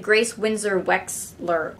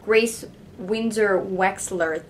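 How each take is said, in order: First: Said in the usual way. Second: Slow careful name. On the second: Shown as a demonstration. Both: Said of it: "That is hard to say".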